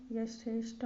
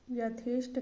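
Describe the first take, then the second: First: Said in the usual way. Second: यथेष्ट as the faulty form, slightly stressed; wrong pronunciation. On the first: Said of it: "होगा". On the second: Shown as a demonstration. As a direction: present यथेष्ट as the mistake. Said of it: "गलत है".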